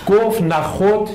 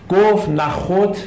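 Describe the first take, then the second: The two takes are said the same way.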